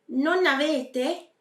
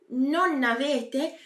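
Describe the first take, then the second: The two takes are said the same way.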